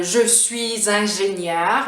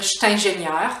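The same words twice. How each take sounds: First: "je suis ingénieur" slow, with z liaison; full standard pronunciation. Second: "je suis" reduced to "cht" before "ingénieur"; Quebec contraction. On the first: Teacher showing the standard form first, full pronunciation. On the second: Teacher showing the Quebec version, contracted pronunciation. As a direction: say "cht'ingénieur", no vowel before the t. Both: Shown as a demonstration. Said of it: "on va dire".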